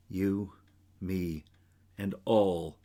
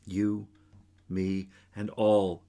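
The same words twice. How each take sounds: The two takes are said the same way.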